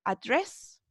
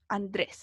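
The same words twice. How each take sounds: First: "Address" softly in American English, rising; soft Americanized model of "Address"; gringo accent. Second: Said in the usual way. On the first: Shown as a demonstration. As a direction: say "Address" with an American r, stressed on DRESS. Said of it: "Un poquito más gringa". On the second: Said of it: "Nuestro Andrés".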